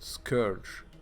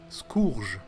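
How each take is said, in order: First: It is said with an English pronunciation. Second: It is said with a French pronunciation.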